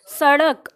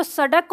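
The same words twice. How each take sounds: First: सड़क with a quick flapped ड़; correct flapped ड़. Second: सड़क said with the hard ड of डमरू; wrong hard ड. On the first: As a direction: give the right flap in सड़क. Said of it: "क्या बोलते हैं?". (सड़क सही ढंग से, ड़ के साथ) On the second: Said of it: "इसको ड ही बोलोगे जैसा डमरू". (ग़लत उच्चारण, डमरू वाला ड) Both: Shown as a demonstration.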